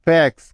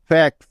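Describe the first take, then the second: No difference in how they are said.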